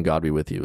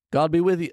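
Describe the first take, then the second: First: Said in the usual way. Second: High called greeting; mock call out. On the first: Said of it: "But just shouting". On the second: Man calling out to fighting giants, high called greeting. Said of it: "the man called out".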